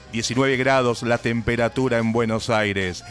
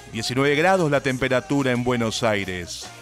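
No difference in how they are said.

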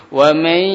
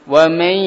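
The two takes are said the same way.

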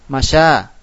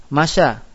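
No difference in how they are said.

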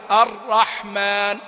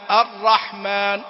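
Both takes have the same delivery.

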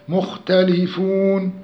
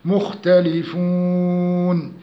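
First: The long vowel is held for two counts. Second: The long vowel is held for six counts. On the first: "أيضا مد عرض السكون 2 4 6" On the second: "أيضا مد عرض السكون 2 4 6"

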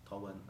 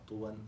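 First: The first vowel is a. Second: The first vowel is u. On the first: "والفتح" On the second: "الضم"

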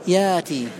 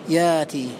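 Both takes have the same delivery.

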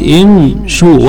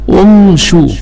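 First: The word begins with an 'i' vowel. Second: The word begins with an 'u' vowel. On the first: The speaker calls it right. "تبقى همزة الوصل على أصلها مكسورة" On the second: The speaker calls it wrong. "ولا تقول"

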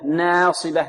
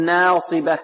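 First: The long vowel after n leans toward e. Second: The long vowel after n leans toward e.

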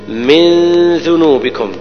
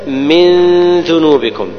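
Both takes have the same delivery.

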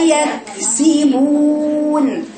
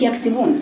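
First: The k and s sounds are kept apart. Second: The k and s sounds run together. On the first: The speaker calls it right. "افصل بين الكاف بين السين" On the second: The speaker calls it wrong. "ما تقوليش يكسبون، اخداش كده المخرجين على بعضهم"

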